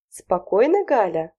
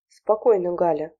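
First: Yelling. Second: Firm, steady calming tone, a little louder. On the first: Wife screaming back at her husband, furious yell. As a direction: throw his word back at him in a rage. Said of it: "заорала на него Галина Семёновна". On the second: Husband trying to calm his charging wife, steady and firm. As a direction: hold her back with a steady voice. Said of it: "попытался остановить рванувшую к подъезду супругу". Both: A narrator's reading.

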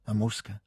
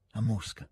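First: "A Mosca?" as a quiet, hesitant question. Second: "a Mosca." with a soft falling tune; quiet statement. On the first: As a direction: say "A Mosca?" asking, tune left open. ("A Mosca?" detto interrogativamente) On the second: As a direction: confirm "a Mosca." quietly, voice settling down. ("a Mosca." affermato piano, in discesa) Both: A narrator's reading. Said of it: "disse poi interrogativamente".

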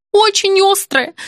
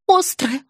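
First: Очень hit high and loud, drawn out slowly; an insistent wail leaning on очень; stress on очень. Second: Said in the usual way. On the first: A narrator's reading. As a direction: lean hard on очень, pitched up. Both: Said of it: "затрещала Елена".

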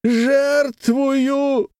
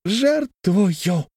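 First: High, slow, weighty declaration; high slow solemn word. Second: High, drawn-out, weighty; high measured proclamation; deliberately spaced. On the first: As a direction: pronounce it like a vow. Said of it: "Он произнёс". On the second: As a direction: lay the word down slowly. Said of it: "проговорил с расстановкой". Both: A narrator's reading.

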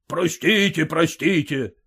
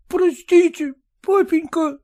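First: Mocking mimicry. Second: Put-on high, pleading sobbing boy; weeping plea. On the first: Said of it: "передразнил его отец". (отец передразнивает плачущего сына) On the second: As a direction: beg forgiveness through tears. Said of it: "горько плача". (сын, горько плача, просит прощения) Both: A narrator's reading.

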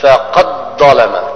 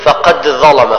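First: فقد ظلم said slowly, the dal merged into the ظ; slow deliberate فقد ظلم with full assimilation; teacher's correct reading. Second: فقد ظلم with the dal pronounced separately; wrong reading. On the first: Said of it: "فنقول فقد ظلم". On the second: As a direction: show the mistake: clear dal before ظلم. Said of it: "خطأ". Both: Shown as a demonstration.

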